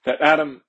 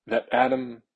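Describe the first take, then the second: First: "Adam" punched louder, falling; stress on Adam. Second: Said in the usual way. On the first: Real, not acted. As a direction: hit "Adam" firmly. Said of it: "really important to point out". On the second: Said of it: "that Adam is right there".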